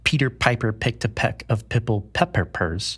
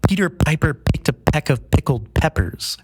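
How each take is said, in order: First: The P sounds are soft, without popping bursts. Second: The P sounds hit with loud popping bursts. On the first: "they sound pretty all right" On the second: "If I turn to the microphone without a pop filter"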